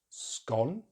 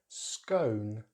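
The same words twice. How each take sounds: First: The vowel is short. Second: The vowel is a diphthong. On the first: "in British English" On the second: "use a diphthong"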